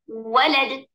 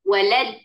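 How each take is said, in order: First: The stress is on the first syllable. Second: The stress is on the second syllable. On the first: The speaker calls it right. "सही जगह पर डालकर वो जो वाव है इस तरीके से पढ़ेंगे जो सही तरीका है" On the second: The speaker calls it wrong. "अब गलत वाला शुरू करेंगे"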